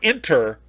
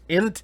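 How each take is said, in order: First: It is said with an r sound, 'inter'. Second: It is said without an r sound, 'int'. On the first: The speaker calls it wrong. "Not inter" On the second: The speaker calls it right. "That's how he pronounced it"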